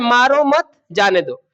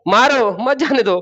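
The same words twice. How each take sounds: First: The pause comes after the word 'mat'. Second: The pause comes after the word 'maro'.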